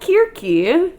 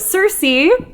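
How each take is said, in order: First: The name begins with a k sound. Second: The name begins with an s sound.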